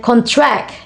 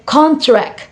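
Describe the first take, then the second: First: "contract" stressed on the second syllable, con-TRACT; verb stress. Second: "contract" stressed on the first syllable, CON-tract; noun stress. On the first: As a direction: punch the last syllable of "contract". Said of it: "a verb". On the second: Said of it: "contract is a noun". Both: Shown as a demonstration.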